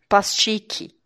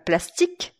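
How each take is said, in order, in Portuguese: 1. O 'i' final é fraco, sem força extra. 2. O 'i' final é forte e bem apertado. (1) "a tendência de quem fala português é falar" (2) "dá uma apertadinha em você mesmo na hora que chegar o i"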